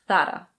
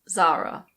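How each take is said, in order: First: It is said with a Spanish pronunciation. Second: It is said with an English pronunciation. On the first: "most Spaniards pronounce it Zara" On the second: "In English, we say Zara"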